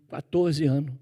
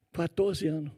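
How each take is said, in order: First: Said in the usual way. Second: "Quatorze anos." repeated much softer, letting it sink in; quiet emphasis. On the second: Real, not acted. Preacher to congregation, repeating his age softly. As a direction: echo "Quatorze anos." under your breath for weight.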